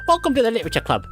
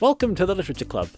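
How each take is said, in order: First: It is said in a put-on character voice. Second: It is said in his ordinary voice.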